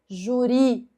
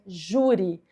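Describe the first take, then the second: First: The stress is on the last syllable. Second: The stress is on the first syllable. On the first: The speaker calls it wrong. "Não é juri" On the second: The speaker calls it right. "é júri"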